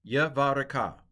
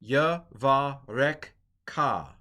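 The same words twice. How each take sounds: First: Yavareka said smoothly as one word, the schwa kept silent; fluent Yavareka; corrected take. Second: Yavarek ka split into two slow words, with a full break before ka; halting Yavarek ka; wrong take. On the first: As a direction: run Yavareka together in a single flowing word. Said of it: "Sorry, I'm having trouble with it". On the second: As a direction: drag out Yavarek ka very slowly, as a learner who is struggling. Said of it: "see, this, this is a silent schwa". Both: Shown as a demonstration.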